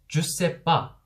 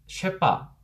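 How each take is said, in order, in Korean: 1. 'ne'가 빠져서 세 음절이 됩니다. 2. 'shépa'처럼 두 음절로 줄어듭니다. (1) "느를 빼버립니다. ... 삼음절로 발음을 하는 거예요" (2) "주랑 세를 합쳐서 쉐빠 ... 이음절로 줄이게 되는 거죠"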